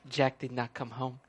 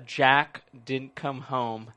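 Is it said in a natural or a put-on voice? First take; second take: put-on; natural. First: It is said in a put-on character voice. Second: It is said in his natural voice.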